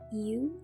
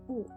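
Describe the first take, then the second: First: It sounds like 'you', starting with a y-glide. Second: It sounds like 'oo', a pure rounded vowel. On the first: This is the English letter name. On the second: This is the Indonesian letter name.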